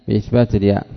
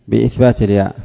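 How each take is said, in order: Both takes have the same delivery.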